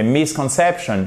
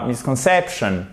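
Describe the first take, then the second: First: Misconception with MIS lifted before stressed CEP; secondary stress. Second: Misconception with weak MIS, only CEP stressed; missing secondary stress. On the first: Teacher correcting learners, secondary stress heard. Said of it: "c'est misconception". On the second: Teacher showing learners what to avoid, no secondary stress. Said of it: "c'est pas misconception". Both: Shown as a demonstration.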